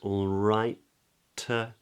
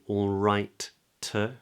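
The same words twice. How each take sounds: First: The first T is held with a brief hesitation. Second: Both T sounds are fully released separately. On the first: "we make the first T, all right, and we hold it" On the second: "We don't have to say all right to"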